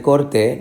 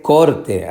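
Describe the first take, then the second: First: "corté" with the weight on TÉ; stress on last syllable. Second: "corte" with the weight on COR; stress on first syllable. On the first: Teacher showing what is not written, stressing TÉ in "corté". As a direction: emphasise the final TÉ of "corté". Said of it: "no hay tilde". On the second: Teacher showing what is written here, stressing COR in "corte". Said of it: "Pero aquí dice". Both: Shown as a demonstration.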